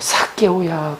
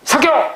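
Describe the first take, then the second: First: The name is called in a loving voice. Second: The name is shouted roughly and harshly.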